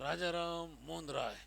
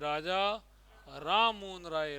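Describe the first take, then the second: First: The phrase breaks after the word Ram. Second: The phrase breaks after the word Raja. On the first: Raja Ram is the person's name and Mohan Roy is the father's. The speaker calls it wrong. "यानी राजा राम तो उनका खुद का नाम, और मोहन राय उनके पिताजी का नाम। ये नहीं है" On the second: Raja is a title and Ram Mohan Roy is the name. The speaker calls it right. "ऐसे बोलना चाहिए"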